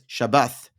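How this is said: It is said ending with a th sound. "or Yemenite, which is Shabbath"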